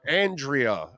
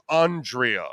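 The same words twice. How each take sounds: First: Andrea as AN-dree-uh; common pronunciation. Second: Andrea slowly as AHN-dree-uh; touchy correction. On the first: Shown as a demonstration. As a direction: open Andrea with the vowel of "and". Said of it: "No, it's Andrea". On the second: Retold or imitated. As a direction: open Andrea with a broad "ah". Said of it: "really touchy about it".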